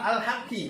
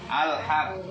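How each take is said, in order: First: It ends with a doubled q and a vowel. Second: It ends on a held, bounced q sound. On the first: The reciter continues into the next word. "kalau wasal" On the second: The reciter stops at this word. "Ini kalau berhenti"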